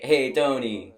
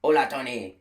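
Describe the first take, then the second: First: "Hey, Tony." called out as a loud Italian hello; an upbeat "Hey, Tony." greeting a local hotshot; Italian-style greeting. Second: "Hola, Tony." called out brightly with a mock Spanish lilt; Spanish greeting. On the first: The wrong, Italian version, called out cheerfully. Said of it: "But no, that's Italian". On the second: The corrected Spanish version, a mock Spanish greeting. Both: Shown as a demonstration.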